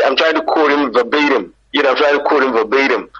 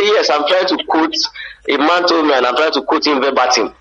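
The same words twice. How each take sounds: First: Higher-pitched put-on American English; American accent. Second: Raised-pitch Nigerian English; Nigerian accent. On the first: Nigerian switching accent to be understood abroad, American accent. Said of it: "so you have to laugh". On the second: Acted. Nigerian abroad repeating himself to a baffled listener, Nigerian accent. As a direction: explain it earnestly in a Nigerian accent. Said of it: "You say".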